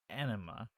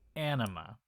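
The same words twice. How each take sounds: First: The word is said in a British accent. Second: The word is said in a plain accent. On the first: "they all have British accents and they sound a little bit more like they're saying" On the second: "They're meaning anima as an A N I M A"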